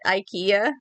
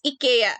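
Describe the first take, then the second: First: The word begins with an 'eye' sound. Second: The word begins with an 'ee' sound. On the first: The speaker calls it wrong. "most Western countries call it IKEA" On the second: The speaker calls it right. "That's the actual Swedish pronunciation of it"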